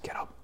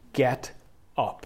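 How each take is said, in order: First: It is said quietly and gently. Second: It is said loudly like a blast.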